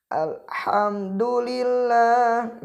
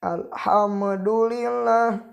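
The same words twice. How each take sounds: First: Alhamdulillah slow, mim joined straight on; correct reading. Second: Alhamdulillah with a bounced mim, alhamadulilah; wrong reading. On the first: Teacher showing the right smooth mim. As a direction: recite Alhamdulillah slowly, no bounce. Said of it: "Nah, seperti itu". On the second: Teacher showing the wrong bounced mim. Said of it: "itu salah bacanya". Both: Shown as a demonstration.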